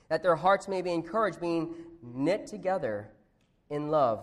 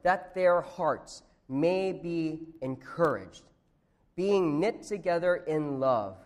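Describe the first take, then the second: First: The phrase is spoken at a normal, quicker pace. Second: The phrase is spoken at a noticeably slower pace.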